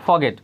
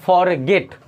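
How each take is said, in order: First: The r sound is silent. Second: The r sound is clearly pronounced. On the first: "लोग इसको फॉरगेट बोलते हैं style में" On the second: "फॉरगेट लिखा हो गया"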